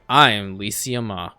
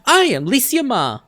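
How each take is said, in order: First: It is said in a flat, subdued voice. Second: It is said in a bright, upbeat voice. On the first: This is how the character sounds now. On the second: This is how the character first sounded.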